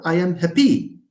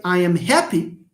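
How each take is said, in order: First: "happy" wrongly said hap-PY; misplaced final stress. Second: "happy" said HAP-py, first syllable strong; stress on first syllable. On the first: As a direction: lean hard on PY in "happy". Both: Shown as a demonstration. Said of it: "since you pronounce happy as happy".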